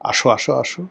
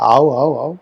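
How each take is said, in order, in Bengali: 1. এটি প্রমিত বাংলায় বলা হচ্ছে। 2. এটি একটি আঞ্চলিক উপভাষায় বলা হচ্ছে।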